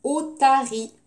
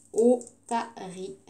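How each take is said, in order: First: Said in the usual way. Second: "Otarie" slow, in three separate beats, o-ta-rie; split into syllables. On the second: Shown as a demonstration. Teacher sounding out a word for the class, "Otarie" syllable by syllable. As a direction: say "Otarie" slowly with a gap after each syllable. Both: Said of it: "combien de syllabes?".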